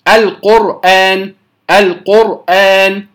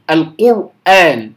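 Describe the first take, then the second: First: القرآن with one light tap on the ra, slowly; correct single-tap ra. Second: القرآن with the ra rolled too long, slowly; over-trilled ra. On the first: Teacher modelling the correct ra, slow. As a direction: tap the ra of القرآن once, cleanly. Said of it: "إنما نقول". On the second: Teacher demonstrating the wrong trilled ra, slow. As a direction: roll the ra of القرآن too much. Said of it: "لا أقول القرآن". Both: Shown as a demonstration.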